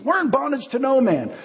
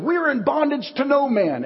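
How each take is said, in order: First: Mock-haughty, much higher; proud denial. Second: Mock-haughty, much higher and slow; proud denial. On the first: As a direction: puff up and deny it again. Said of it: "This is what they said to Jesus". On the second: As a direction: puff up and deny it, slowly.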